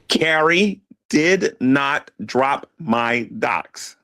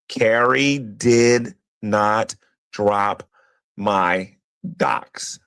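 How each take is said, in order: First: It is said at a normal pace. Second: It is said slowly and deliberately.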